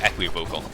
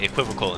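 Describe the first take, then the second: First: It is said as two parts, equi and vocal. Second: It is said run together, not as parts. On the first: The word is a compound of its parts. "equi and vocal" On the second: This is the everyday pronunciation. "people say equivocal"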